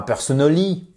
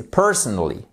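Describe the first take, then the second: First: "personally" with full French vowels, per-so-no-LI; French-style mispronunciation. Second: "personally" as PER-sonally, falling; first-syllable stress. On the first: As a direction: lift the end of "personally", no first-syllable stress. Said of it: "Mais là, c'est pas". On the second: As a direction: hit PER, reduce the rest of "personally". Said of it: "the first syllable is stressed". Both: Shown as a demonstration.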